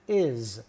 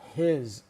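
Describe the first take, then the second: First: The word is said without the h sound. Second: The word is said with a clear h sound. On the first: The speaker calls it right. "we pronounce it is" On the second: The speaker calls it wrong. "not his"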